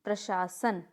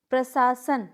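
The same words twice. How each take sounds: First: प्रशासन said pra-shaa-san; correct pronunciation. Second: प्रशासन said slowly as pra-saa-san; wrong pronunciation. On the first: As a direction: model प्रशासन with a clear sh. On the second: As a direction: demonstrate the mistake प्रशासन with s for sh. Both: Shown as a demonstration. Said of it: "नहीं".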